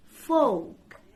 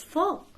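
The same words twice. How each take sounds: First: "Folk" with a long OH, no L; correct pronunciation. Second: "folk" with a short clipped O; short vowel in "folk", pitched up; mispronunciation. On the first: Teacher gives the right word, "Folk" with long OH. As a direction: stretch "Folk" into FOHK. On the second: Teacher quizzes with wrong version, short O in "folk". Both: Shown as a demonstration.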